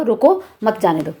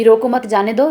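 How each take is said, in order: First: "रोको", break, then falling "मत जाने दो"; comma after रोको. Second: Group "रोको मत" together, then "जाने दो"; comma after मत. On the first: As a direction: set रोको apart from मत. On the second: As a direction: rise at the end on दो. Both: Shown as a demonstration. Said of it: "कितना भाव बदल जाते हैं".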